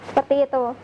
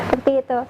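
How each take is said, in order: Both takes have the same delivery.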